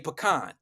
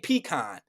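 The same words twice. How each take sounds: First: Pecan is said the way New Orleans locals say it. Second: Pecan is said the way outsiders say it. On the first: "they say pecan" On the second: "they don't say pecan"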